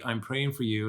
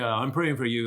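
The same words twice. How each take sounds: First: It sounds warm and caring. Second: It sounds judgmental and reproachful. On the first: The listener is held with love and sympathy. The speaker calls it right. "and I'm holding you in my heart tonight" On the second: The listener had better change their behavior. The speaker calls it wrong. "like you better shape up kind of a thing"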